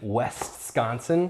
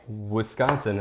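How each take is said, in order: First: The first syllable sounds like 'west'. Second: The first syllable sounds like 'wis'. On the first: This is how outsiders say it. The speaker calls it wrong. "they're like, "You mean West-Sconsin?"" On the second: This is how locals say it. The speaker calls it right. "I just say Wisconsin"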